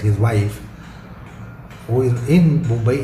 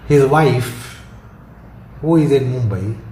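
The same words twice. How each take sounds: First: It is said without a pause after wife. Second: There is a pause after wife. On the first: He has only one wife. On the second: He has several wives, and it is the one in Mumbai.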